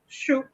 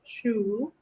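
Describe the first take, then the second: First: The word is said with the fourth tone. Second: The word is said with the first tone. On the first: It means tree. "when I'm using a fourth tone" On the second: It means book. "when I'm using a first tone"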